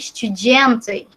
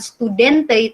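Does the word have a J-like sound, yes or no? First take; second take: yes; no. First: It is said with a J-like sound. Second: It is said without a J-like sound. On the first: The speaker calls it right. "dibacanya seperti kayak J" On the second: The speaker calls it wrong. "bukan studente"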